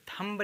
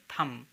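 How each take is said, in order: First: थंब said as "thumb-uh" with B; final B pronounced. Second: थंब said as "thum"; silent B. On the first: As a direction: say थंब, releasing B after M. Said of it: "थंब नहीं कहेंगे इसे". (थंब के अंत में ब बोलकर) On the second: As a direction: say थंब ending on M, no B. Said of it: "इसे कहेंगे थंब". (थंब को "थम" बोलें, ब मौन) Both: Shown as a demonstration.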